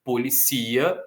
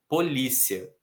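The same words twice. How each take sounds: First: Policia stressed on CI; po-li-CI-a with the weight on ci; verb policia. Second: Polícia stressed on LÍ; po-LÍ-cia with the weight on lí; noun polícia. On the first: Teacher contrasts policia with polícia. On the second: Teacher contrasts polícia with policia. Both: Shown as a demonstration. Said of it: "Ambas as palavras existem".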